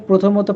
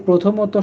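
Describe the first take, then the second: The two takes are said the same way.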